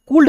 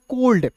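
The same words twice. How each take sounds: First: कूल्ड with an OO vowel; wrong pronunciation. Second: कोल्ड with an O vowel; taught pronunciation. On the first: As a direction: say could as "koold", कूल्ड. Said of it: "कूल्ड नहीं पढ़ेंगे". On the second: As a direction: say कोल्ड as "kold". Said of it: "इसे पढ़ेंगे कोल्ड". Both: Shown as a demonstration.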